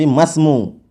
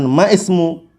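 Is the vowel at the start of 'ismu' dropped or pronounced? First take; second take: dropped; pronounced. First: The vowel before the s is dropped and joined. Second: The vowel before the s is pronounced separately. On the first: The speaker calls it right. "tapi masmu" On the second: The speaker calls it wrong. "bukan maismu"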